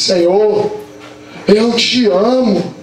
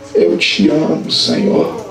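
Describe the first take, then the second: First: It is said louder and with courage. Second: It is said very quietly and timidly.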